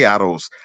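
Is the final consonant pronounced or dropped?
pronounced. The final z sound is pronounced.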